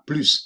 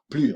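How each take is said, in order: First: The final S sound is pronounced. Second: The final S sound is silent. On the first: The speaker calls it wrong. "On ne dira pas plus" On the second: The speaker calls it right. "on ne prononce pas le S suivi de l'adjectif avec euh, une consonne"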